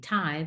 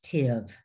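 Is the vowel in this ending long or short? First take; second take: Long; Short. First: The ending has a long 'eye' vowel. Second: The ending has a short 'ih' vowel. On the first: The speaker calls it wrong. "It looks like it should be tive" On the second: The speaker calls it right. "but it's tiv"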